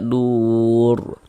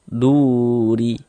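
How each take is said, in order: First: The word ends on a silent consonant r. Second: The word ends with a short i vowel. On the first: The speaker calls it right. "kalau berwakaf di huruf ro kita baca dur" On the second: The speaker calls it wrong. "Jangan dibaca duri"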